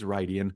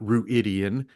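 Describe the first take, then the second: First: The first syllable sounds like 'ride'. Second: The first syllable sounds like 'rue-id'. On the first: This is how the pronunciation guide gives it. The speaker calls it right. "It is Rydian" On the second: This is a spelling-based guess at the name. The speaker calls it wrong. "It is not Ruidian, which is how I pronounced it"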